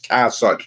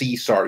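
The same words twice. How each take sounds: First: The name gets its older, original pronunciation. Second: The name gets its modern English pronunciation. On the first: This is how the name was said originally. The speaker calls it right. "His name was Caesar. That's how they would pronounce it" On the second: This is how English speakers say the name today. The speaker calls it wrong. "Caesar wasn't uh, pronounced Caesar"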